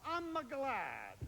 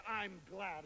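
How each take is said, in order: First: Put-on slow Italian accent, gliding a vowel into I'm a glad; mock Italian, extra vowel before glad. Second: Said in the usual way. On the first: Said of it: "You've gotta glide into it". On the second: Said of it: "You can't say".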